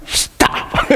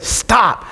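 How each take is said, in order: First: Whispered, mocking echo of dad; child's mimicking. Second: Parent's warning. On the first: Son onstage mimicking his dad, whispered mock warning. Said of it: "he just looked at me and went". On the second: Retold or imitated. Dad in the front row to his son onstage, restrained warning. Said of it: "and I said".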